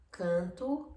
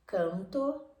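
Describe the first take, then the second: First: Canto nasalized, ending in u; Portuguese nasal canto. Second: Canto oral, ending in a clear o; Spanish canto. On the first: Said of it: "canto en nasal portugués". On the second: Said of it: "Canto en español". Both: Shown as a demonstration.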